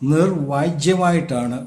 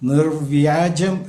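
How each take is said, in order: First: The y-glide follows the j sound. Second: The y-glide follows the v sound. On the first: The speaker calls it wrong. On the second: The speaker calls it right.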